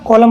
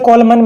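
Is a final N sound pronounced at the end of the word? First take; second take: no; yes. First: The word ends on M with no N. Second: The word ends with an audible N sound. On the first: The speaker calls it right. "कॉलम होता है ना" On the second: The speaker calls it wrong. "इसे कॉलमन मत पढ़ना"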